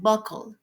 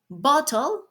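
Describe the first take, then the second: First: The middle consonant sounds like a k. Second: The middle consonant sounds like a t. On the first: This is the Jamaican form. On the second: This is the standard English form.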